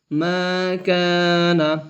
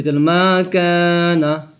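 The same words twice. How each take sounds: First: Each syllable stretched slowly; teacher drawing out মা কা না for pupils to repeat; very slow drawn syllables. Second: Said in the usual way. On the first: Shown as a demonstration. Slowly drawing out মা কা না to pupils. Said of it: "তাড়াতাড়ি পড়তে হয়". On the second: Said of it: "হরকত উচ্চারণ করতে হয়, তাড়াতাড়ি পড়তে হয়".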